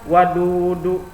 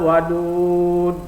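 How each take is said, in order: First: The word ends with an extra vowel sound. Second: The word ends on a bare consonant. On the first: The speaker calls it wrong. "Jangan dibaca wadudu" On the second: The speaker calls it right. "ketika diwaqafkan dia harus dibaca sukun"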